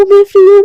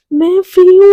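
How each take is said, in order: First: High, loud, even more elated; louder joyful shout. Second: Loud, high, happy burst; excited cry. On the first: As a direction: shout it out, freer than before. (और ज़ोर से खुशी की चीख) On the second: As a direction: blurt out your joy at being free. Radhika rejoices at freedom. (खुशी से ऊँची आवाज़ में) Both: Retold or imitated.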